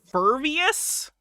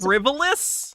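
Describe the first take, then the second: First: The first syllable sounds like 'fur'. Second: The first syllable sounds like 'friv'. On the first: The speaker calls it wrong. "what word she mispronounced" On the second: The speaker calls it right. "She couldn't read frivolous?"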